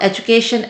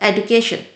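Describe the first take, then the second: First: The middle consonant is a soft j sound. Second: The middle consonant is a hard d sound. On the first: The speaker calls it right. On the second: The speaker calls it wrong.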